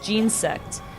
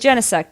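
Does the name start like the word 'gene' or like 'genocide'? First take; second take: gene; genocide. First: It starts like the word gene. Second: It starts like the word genocide. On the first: The name evokes genes and DNA. "because it has something to do with, like, D N A and stuff" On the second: The name evokes killing. "Genesect sounds a little bit like genocide"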